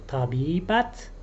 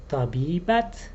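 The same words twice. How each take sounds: Both takes have the same delivery.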